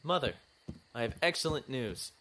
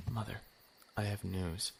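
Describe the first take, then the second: First: Bursting in with good news, higher; calls out his news a bit too eagerly; eager announcement. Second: Softer, held-back telling; hushed. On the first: Son bursts in to tell mother, eager and raised. Shh, quiet, you'll wake Harriet. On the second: Son retells his news to mother, now hushed. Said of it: "Shh, quiet, you'll wake Harriet". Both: Acted.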